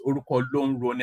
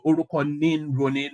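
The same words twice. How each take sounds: First: Orúkọ ló ń roni rattled off fast and quietly; Lagos Yoruba form. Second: Orúkọ ní ń roni said the Oyo way; Oyo Yoruba pronunciation. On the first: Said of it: "not ... as they say in Lagos". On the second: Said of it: "we say". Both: Shown as a demonstration.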